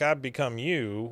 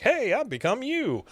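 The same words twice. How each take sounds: First: Said in the usual way. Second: High, swooping cheery "Hey"; upbeat version. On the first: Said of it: "you said it like". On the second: Retold or imitated. Hank showing Luann how to say it, upbeat and high. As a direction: say it like great news, pitched way up. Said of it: "could have said it more like".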